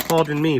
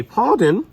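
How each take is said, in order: First: Said in the usual way. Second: "pardon" in a high, louder posh British accent. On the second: Shown as a demonstration. Teacher playfully tries a British "pardon" for students. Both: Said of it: "Trying to get the British accent going".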